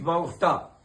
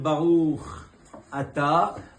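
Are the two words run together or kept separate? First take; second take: run together; separate. First: The two words are run together as one. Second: The two words are kept clearly separate. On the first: The speaker calls it wrong. "vous avez avalé les deux mots en un seul mot" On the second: The speaker calls it right. "au lieu de dire Baruch Ata"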